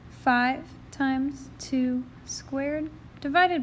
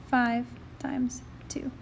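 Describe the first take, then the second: First: Said in the usual way. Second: Whispered under the breath; whispering. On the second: Real, not acted. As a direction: whisper it to yourself. Muttering the calculation to self.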